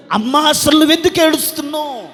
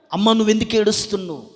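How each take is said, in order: First: Raised, high preacher's cry as God asking; loud demanding question. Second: Toned-down question. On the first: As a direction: call the question out to the congregation. God's question, loud then lower. (గొంతెత్తి గట్టిగా ప్రశ్నిస్తూ) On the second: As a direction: drop from preaching into a personal question. Same question repeated, toned down. (గొంతు తగ్గించి అడుగుతూ) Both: Acted.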